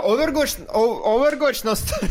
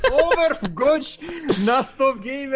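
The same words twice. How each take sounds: First: Louder, higher hype call; hyped announcement. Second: Overwatch stretched slowly, high and loud with a laugh; drawn-out hype. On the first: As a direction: sell it like an announcer. (возбуждённо) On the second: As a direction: drag out Overwatch like a showman. (растянуто и восторженно) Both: Acted. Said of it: "hyping the stream".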